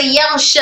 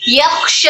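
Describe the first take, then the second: First: "यख्श" said as "yagh-sha", breath held back; kh turned ghayn. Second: "यख्श" with breath flowing through voiceless kh; correct airy kh. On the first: Teacher shows what held breath does, "यख्श" with gh. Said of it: "खो की आवाज गाइन में बदल जाएगी". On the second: Teacher gives the right form first, "यख्श" with airy kh. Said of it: "सांस को रोक दिया". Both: Shown as a demonstration.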